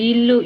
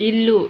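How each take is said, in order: No difference in how they are said.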